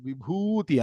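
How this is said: It is pronounced the Sanskrit way, with a long vowel. The speaker calls it right. "Can you see in Sanskrit? It is Vibhuti"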